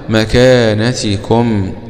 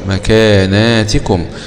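First: There is no long vowel after the n. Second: A long a vowel follows the n.

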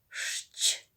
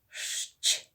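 The two takes are said the same way.

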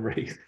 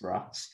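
First: The vowel is an 'ay' sound. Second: The vowel is an open 'ah' sound. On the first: The speaker calls it wrong. "but I call him race. And I know it's wrong" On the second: The speaker calls it right. "That's how you're supposed to pronounce it, because it's R-A-A-S"

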